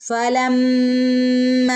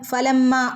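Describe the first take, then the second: First: The word is said with doubling and lengthening. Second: The word is said quickly without lengthening. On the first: The speaker calls it right. "ഇങ്ങനെ ഓതണം" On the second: The speaker calls it wrong. "പെട്ടെന്ന് ഓതി പോവരുത്"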